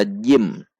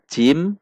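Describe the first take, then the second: First: Jim with a voiced j sound; correct jim. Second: Jim with a voiceless ch sound; wrong take. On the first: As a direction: voice the j in jim clearly. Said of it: "namun dibaca jim". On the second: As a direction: show jim said like cim. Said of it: "bukan dibaca jim". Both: Shown as a demonstration.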